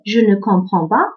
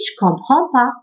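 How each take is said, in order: First: The particle ne is clearly pronounced. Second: The particle ne is left out entirely. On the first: This is the written or careful form. "À l'écrit, je dis" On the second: This is the casual spoken form. "à l'oral, je peux dire aussi"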